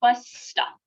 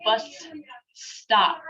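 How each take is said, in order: First: "bus stop" run together on one held s; joined "bus stop", lengthened s, no break; held consonant. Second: "bus" and "stop" as two separate words, clear gap between; wrong way, "bus", full stop, then "stop"; split in two. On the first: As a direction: hold the s of "bus" straight into "stop". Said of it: "You hold it". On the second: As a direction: break "bus ... stop" apart with a pause. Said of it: "you don't say". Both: Shown as a demonstration.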